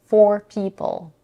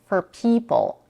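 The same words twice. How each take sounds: First: 'For' keeps a full vowel and is stressed. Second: 'For' is reduced to a weak 'fur'. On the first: "She keeps the pure vowel for people, and both words are stressed" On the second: "reduce for in the phrase for people to fur, where the vowel is an R color schwa"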